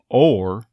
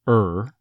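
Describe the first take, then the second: First: The word is stressed with a full vowel. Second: The word is unstressed with a reduced vowel. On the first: "now if you stressed it, might become or" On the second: "it's very common for it to simply become er"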